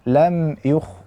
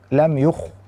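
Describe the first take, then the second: The two takes are said the same way.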